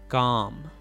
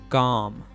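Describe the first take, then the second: The two takes are said the same way.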